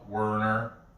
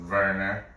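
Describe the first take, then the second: First: The name begins with a W sound. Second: The name begins with a V sound. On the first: "It's spelled Werner" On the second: "it's pronounced Werner"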